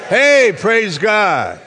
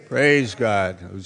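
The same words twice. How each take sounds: First: Slow, high, loud praise shout. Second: Said in the usual way. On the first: Shown as a demonstration. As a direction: holler it out for the congregation to copy. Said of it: "How about shouting like I can?". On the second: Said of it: "Say it la-, loudly".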